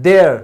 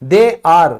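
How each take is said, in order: First: They are is run together as one word. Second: They are is said as two full words.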